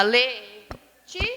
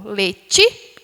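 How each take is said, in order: First: "Le-tí-cia" slowly split with pauses between syllables. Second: "Letícia" with TI punched louder and rising; stress on the TI of Letícia. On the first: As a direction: break Letícia into three separate beats, Le, tí, cia. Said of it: "É separação silábica". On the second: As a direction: lift and lean on the middle syllable of Letícia. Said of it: "tem acento no ti". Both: Shown as a demonstration.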